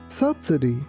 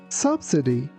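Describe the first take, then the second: The two takes are said the same way.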